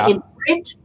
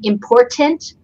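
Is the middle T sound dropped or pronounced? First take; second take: dropped; pronounced. First: The middle T sound is dropped. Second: The middle T sound is clearly pronounced. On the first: "I drop the T" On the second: "instead of saying important"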